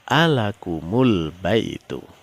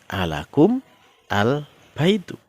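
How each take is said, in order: First: The m carries a u vowel joining the next word. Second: The m has no vowel before the next word. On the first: The speaker calls it right. "mimnya dihidupkan" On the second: The speaker calls it wrong. "Sehingga kalau di situ dibaca menyambung tidak bisa"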